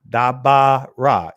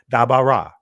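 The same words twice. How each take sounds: First: The stress is on the middle syllable. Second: The stress is not on the middle syllable. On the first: This is the later, more fluent pronunciation. "the accent is being placed in the, the middle, the ah in the middle" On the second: This is the earlier pronunciation. "instead of"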